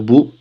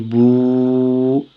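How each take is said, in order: First: The vowel is short. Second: The vowel is held long. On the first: "Au lieu de dire bou" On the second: "on dit bou"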